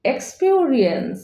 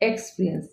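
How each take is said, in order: First: "এক্সপিরিয়েন্স" slowly as eks-pio-ri-ens; correct pronunciation. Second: "এক্সপিরিয়েন্স" quick, as eks-pri-ens; low, soft, squeezed এক্সপিরিয়েন্স; common pronunciation. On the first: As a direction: stretch the middle vowel of এক্সপিরিয়েন্স into a glide. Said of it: "correct pronunciation হবে". ("এক্সপিরিয়েন্স" ধীরে শুদ্ধ উচ্চারণ) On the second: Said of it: "আমরা সাধারণত উচ্চারণ করে থাকি". ("এক্সপিরিয়েন্স" প্রচলিত এক্সপ্রিয়েন্স উচ্চারণ) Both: Shown as a demonstration.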